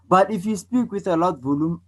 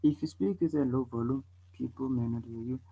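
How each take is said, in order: First: Raised voice, starting high and easing off; moderately louder, projected demonstration; loud volume. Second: Soft voice sinking to very quiet; quiet, under-projected demonstration; low volume. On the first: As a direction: speak up for everybody to hear. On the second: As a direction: drop the volume until barely heard. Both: Shown as a demonstration. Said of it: "So can you tell the difference?".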